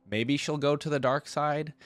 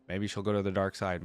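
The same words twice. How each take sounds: First: Higher, louder mock-dramatic movie voice; ominous Star Wars line. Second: Said in the usual way. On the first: Joking to viewers about Star Wars, a mock-dramatic voice. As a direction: ham up a dark-side warning. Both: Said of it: "I'm going Star Wars here".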